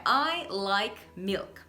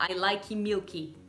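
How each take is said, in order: First: Said in the usual way. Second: "like milky" as LIKE-ee MIU-kee; Brazilian-style "like milky"; wrong extra vowels. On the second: Shown as a demonstration. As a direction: tack ee onto "like" and the end of "milky". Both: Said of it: "E não".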